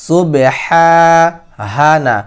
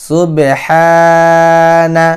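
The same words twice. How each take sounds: No difference in how they are said.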